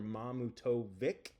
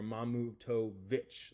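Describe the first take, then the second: First: The name ends without a 'ch' sound. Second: The name ends with a 'ch' sound.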